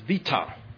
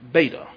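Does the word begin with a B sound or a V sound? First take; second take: V sound; B sound. First: The word begins with a V sound. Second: The word begins with a B sound. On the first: The speaker calls it right. "It is vita" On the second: The speaker calls it wrong. "not beta"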